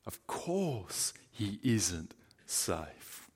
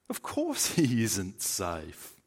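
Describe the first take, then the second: First: "course" drawn out, much softer and very slow; hushed slow repeat. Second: "course" leaned on, slowed right down; firm slow denial. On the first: Preacher repeating the answer, now soft and very slow. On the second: Preacher answering the question, slow with weight on "course". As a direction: stress "course" slowly. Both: Shown as a demonstration.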